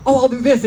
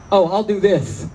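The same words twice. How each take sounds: First: Eager inner voice. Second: Said in the usual way. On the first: Retold or imitated. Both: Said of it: "I keep thinking".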